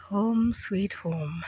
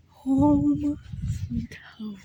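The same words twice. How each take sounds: First: Drawn out very slowly, softer; slow savoring. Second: Breathy whisper on sweet home. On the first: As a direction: savor each word slowly. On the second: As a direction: drop to a whisper at the end. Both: Shown as a demonstration.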